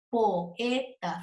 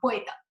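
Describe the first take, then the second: First: The o and e are said as separate syllables. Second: The o and e merge into one syllable. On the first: The speaker calls it right. "son separadas sonoramente" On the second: The speaker calls it wrong. "no es poeta"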